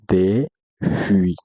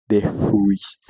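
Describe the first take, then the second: First: No S sound is pronounced in the phrase. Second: An S sound is pronounced in the phrase. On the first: The speaker calls it right. "Le son S ne répète pas ici" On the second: The speaker calls it wrong. "Ne dis pas des fruits. Non"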